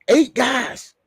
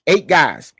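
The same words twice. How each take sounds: First: "Eight" jumps up high and loud; higher emphatic repeat. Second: Loud, punching the word Eight; emphatic count. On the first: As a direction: repeat it higher, still in disbelief and pride. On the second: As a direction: slam "Eight" down hard to make the point. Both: Real, not acted. Hyping his team's NFL prospects.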